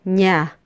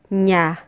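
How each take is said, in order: Both takes have the same delivery.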